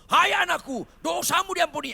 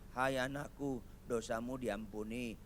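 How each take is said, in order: First: It is said as an enthusiastic exclamation. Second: It is said like a doubtful question.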